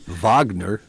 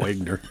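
First: The name begins with a V sound. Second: The name begins with a W sound. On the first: The speaker calls it right. "that'd be Wagner" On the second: The speaker calls it wrong. "not Wagner"

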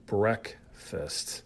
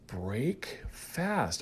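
First: It is said as one word, run together. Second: It is said as two separate full words. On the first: It names the morning meal. "we say breakfast" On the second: It means breaking your fast. "Although we don't say it that way"

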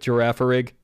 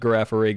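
First: The start sounds like the word giraffe. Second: The start does not sound like giraffe. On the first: The speaker calls it right. "in direct contrast to giraffe, which is obviously what it's based on" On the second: The speaker calls it wrong. "replace every mention of Girafarig"

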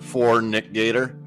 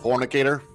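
First: The name is said slowly with separate words. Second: The name is said fast as one word.

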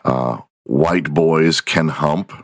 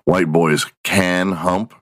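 First: The word 'can' carries no special emphasis. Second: The word 'can' carries strong emphasis.

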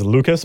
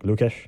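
First: The name ends with an s sound. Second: The name ends with a sh sound. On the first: The speaker calls it wrong. "everyone else says Lukas" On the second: The speaker calls it right. "makes it more of a sh sound"

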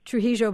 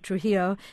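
First: It is said with Argentinian Spanish sounds. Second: It is said with English-speaking sounds. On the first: "you say Trujillo" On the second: "We say Trujillo"

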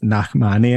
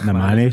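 First: The name has a throaty, flourished middle sound. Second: The name has a plain, unflourished middle sound. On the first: The speaker calls it right. "his name is Nachmani ... the little stank I put on that" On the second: The speaker calls it wrong. "and not Nachmani"

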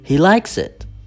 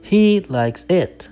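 First: The stress falls on the verb 'likes'. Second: The stress falls on a word other than 'likes'. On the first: The speaker calls it right. "you say, he likes it. The stress goes on the verb" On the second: The speaker calls it wrong. "you don't say"

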